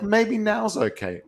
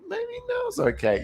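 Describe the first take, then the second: First: High, slow, tentative pet voice; pet's sneaky thought. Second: Very high, slow squeaky pet voice; pet's sneaky thought, even higher. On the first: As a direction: voice the pet testing its luck, drawn out. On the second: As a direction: push the pet voice way up, slow and coaxing. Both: Retold or imitated. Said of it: "It'll be like".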